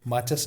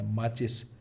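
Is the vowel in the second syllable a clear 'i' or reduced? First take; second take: reduced; clear i. First: The second vowel is reduced, saying 'maachas'. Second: The second vowel is a clear 'i', saying 'maachis'. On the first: The speaker calls it wrong. "माचस नहीं होता" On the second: The speaker calls it right.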